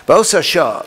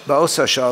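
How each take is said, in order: First: Higher and louder, stressing Ba'osa; emphatic reading. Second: Said in the usual way. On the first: Shown as a demonstration. Teacher reading the Midrash line aloud to the class, emphatic and louder. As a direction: declaim Ba'osa shah as a proclamation.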